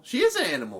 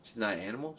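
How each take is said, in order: First: IS punched high and loud; stress on IS. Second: Said in the usual way. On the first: Real, not acted. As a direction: hit the word "is" hard and high. Insisting against friend.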